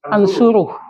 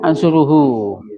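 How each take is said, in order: First: The word ends in a bare h sound. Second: The word ends in an h followed by u. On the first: "ada hak domir yang dimatikan" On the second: "Aslinya ansuruhu"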